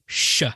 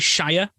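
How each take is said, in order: First: The ending is cut short to a brief 'sh'. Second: The ending is said fully, like 'shy-er'. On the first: The speaker calls it right. "just say Sh" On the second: The speaker calls it wrong. "don't say Shire"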